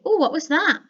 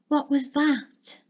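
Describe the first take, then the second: First: It is said casually at normal volume. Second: It is said quietly and fearfully.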